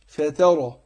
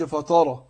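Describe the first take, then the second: First: فترى with a thin light taa and a heavy raa; فترى: taa thin, raa full and heavy. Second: فترى with the taa made heavy like طاء; فترى said thick, taa turned to emphatic طاء; wrong heavy ta. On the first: Teacher giving the correct reading, light taa. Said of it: "رققت التاء". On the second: Teacher showing the mistake, emphatic taa. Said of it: "هتقلب التاء طاء". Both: Shown as a demonstration.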